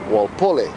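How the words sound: The name is said with Hawaiian-style pronunciation.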